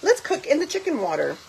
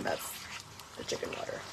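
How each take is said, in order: First: Said in the usual way. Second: Breathy whisper of the name. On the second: Shown as a demonstration. Naming the cooking water for viewers, in a whisper. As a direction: hush it like a secret.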